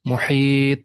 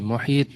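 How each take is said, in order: First: The final consonant ends with a strong echoing bounce. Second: The final consonant ends flat, with no bounce. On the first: The speaker calls it right. "क्योंकि यहाँ पे लास्ट में आ रही है, कल का letter word के एंडिंग में है" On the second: The speaker calls it wrong. "नहीं मुहीत नहीं"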